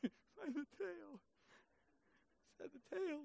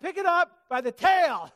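First: Much softer, higher, slow incredulous echo; stunned disbelief. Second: Higher, much louder order to pick it up by the tail; booming command. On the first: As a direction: repeat the order, barely believing it. Moses repeats in disbelief. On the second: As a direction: give the order with full force. God's command, then Moses' disbelief. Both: Acted.

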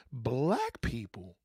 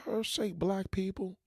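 First: Incredulous echo. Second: Said in the usual way. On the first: Shown as a demonstration. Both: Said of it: "did I just hear".

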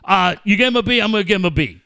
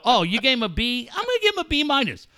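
First: Mock copycat agreement. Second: Higher-pitched, quick counter-offer; mock disagreement. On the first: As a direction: agree by rote, mockingly. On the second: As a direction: lift the voice as if differing. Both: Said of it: "never once did either one of those two dickheads go".

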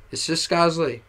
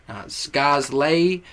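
First: "Scosley" said plainly as SKAHZ-lee; right pronunciation. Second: "Scosley" drawn out slowly, said wrong as skahz-lay. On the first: Plain correct [name]. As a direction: rapper showing fans how his name "Scosley" is said. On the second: Slow wrong [name]. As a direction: rapper showing fans the wrong way to say "Scosley". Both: Shown as a demonstration. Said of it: "And the pronunciation".

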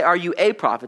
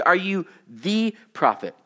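First: Said in the usual way. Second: Slow, leaning hard on "the" in "Are you the prophet?"; "the prophet" with a slowed, weighted "the"; stress on THE. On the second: Shown as a demonstration. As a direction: hit "the", as in the one and only prophet. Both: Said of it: "Now notice they don't say".

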